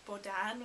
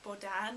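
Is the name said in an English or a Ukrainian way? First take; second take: Ukrainian; Ukrainian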